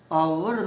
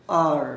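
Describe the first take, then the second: First: आवर as "aa-wur"; two-syllable hour. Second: आर loud, as one long "aar"; American hour. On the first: Teacher sets aside British form, आवर in two syllables. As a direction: put a w glide in आवर. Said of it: "American में इसको". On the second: Teacher shows the American form, आर loud in one syllable. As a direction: hit आर as a single syllable, no w. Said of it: "American English है". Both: Shown as a demonstration.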